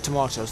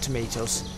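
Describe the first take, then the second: First: It is said with a British pronunciation. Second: It is said with a non-British pronunciation. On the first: "This is British, so we can call it tomatoes" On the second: "not tomatoes"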